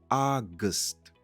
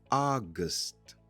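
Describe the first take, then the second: No difference in how they are said.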